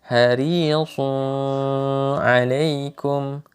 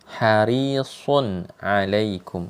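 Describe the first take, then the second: First: The n sound is blended into the next word. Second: The n sound is pronounced clearly and separately. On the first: The speaker calls it wrong. "itu salah ya, bacaan yang salah" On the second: The speaker calls it right. "bacaannya pasti izhar"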